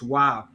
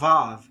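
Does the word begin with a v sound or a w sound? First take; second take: w; v. First: The word begins with a w sound. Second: The word begins with a v sound. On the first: This is the original ancient pronunciation. The speaker calls it right. "It's wow. It's originally in the ancient Hebrew world pronounced w" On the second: This is the later Germanized pronunciation. The speaker calls it wrong. "they often often pronounce it like a v sound, but it's not the v sound. It's not vav"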